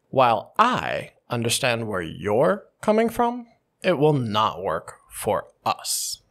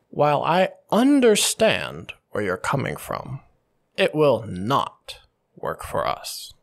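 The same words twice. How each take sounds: First: The stress falls on the pronouns I, you, us. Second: The stress falls on understand and not. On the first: It specifically does not work for our side. "What happens if I stress all the pronouns, the I, you, us?" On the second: The speaker is simply not interested in this. "By emphasizing the understand and the not"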